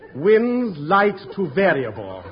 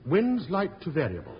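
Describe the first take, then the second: First: It is said warmly, with a smile. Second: It is said in a plain, neutral tone.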